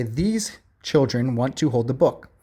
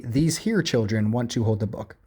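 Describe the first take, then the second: First: Said in the usual way. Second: "These here" with here stressed as the error; wrong usage, stress on here. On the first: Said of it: "The correct one would say". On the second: Shown as a demonstration. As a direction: lean on "here" in "These here children". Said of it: "Incorrect would be".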